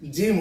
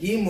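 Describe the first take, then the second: First: The word begins with a J sound. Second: The word begins with a hard G sound. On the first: The speaker calls it right. "জিম হচ্ছে" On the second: The speaker calls it wrong. "গিম হচ্ছে না"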